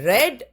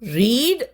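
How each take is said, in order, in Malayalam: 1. ഇതിൽ ഹ്രസ്വമായ 'e' സ്വരമുണ്ട്, red പോലെ. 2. ഇതിൽ ദീർഘമായ 'ee' സ്വരമുണ്ട്, reed പോലെ. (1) "പക്ഷേ അതിനെ ഉച്ചരിക്കുക റെഡ് എന്നാണ്" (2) "വി വൺ ഫോം റീഡ് തന്നെയാണ്"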